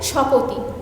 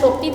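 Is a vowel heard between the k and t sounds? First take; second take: yes; no. First: A vowel separates the k and t sounds. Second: The k and t sounds are joined directly. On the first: "স্বরধ্বনির আগমনের ফলে ভেঙে পৃথক হয়ে যাচ্ছে" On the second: "যুক্ত ব্যঞ্জন"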